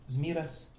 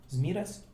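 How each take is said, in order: Both takes have the same delivery.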